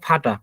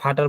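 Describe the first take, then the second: First: The word ends in an open ah vowel. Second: The word ends with a clear r sound. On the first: The speaker calls it right. "কিন্তু এটা হবে হচ্ছে ফাটা" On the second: The speaker calls it wrong. "দেখবেন অনেকেই বলে হচ্ছে ফাটার"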